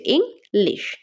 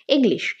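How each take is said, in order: First: English split in two, ইং, then লিশ; English as two separate beats; syllable by syllable. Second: Said in the usual way. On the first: Shown as a demonstration. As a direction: break English with a gap after ইং. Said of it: "দুইটা syllable রয়েছে". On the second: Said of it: "English কয়টা ভাগে ভাগ করতে পারছি?".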